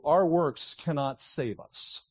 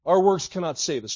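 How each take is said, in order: First: Slow deliberate statement. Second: Preacher's forceful repeat; louder repeated punch. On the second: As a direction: hit Our works cannot save us hard the second time. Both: Shown as a demonstration. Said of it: "let me just say to you".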